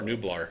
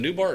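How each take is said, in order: First: "Nublar" said as NOO-blar, L sounded. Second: "Nublar" said as NOO-bar, no L; without the L. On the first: Host checking the island's name, "Nublar" as NOO-blar. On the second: Host unsure of the island's name, "Nublar" as NOO-bar. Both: Shown as a demonstration. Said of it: "is it Nublar or Nublar".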